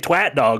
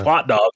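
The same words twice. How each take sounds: First: The first word does not rhyme with 'hot'. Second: The first word rhymes with 'hot'. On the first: The speaker calls it wrong. "you say twat dog, which doesn't sound like anything" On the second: The speaker calls it right. "it sounds like a hot dog"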